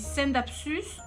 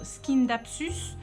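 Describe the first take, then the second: First: The word begins with a plain 's' sound. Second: The word begins with an 'sk' sound. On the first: This is how the speaker says it. "Moi, je dis" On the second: Some other people say it this way. "il y a des personnes qui prononcent"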